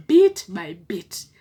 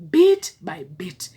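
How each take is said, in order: First: "Bit by bit" slow, each word set apart; slow emphasis. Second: "Bit by bit" slow, high and louder; loud slow emphasis. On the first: Preaching the steps, slow emphasis. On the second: Preaching to couples, slow forceful emphasis. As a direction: hammer "Bit by bit" home, louder and higher. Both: Shown as a demonstration.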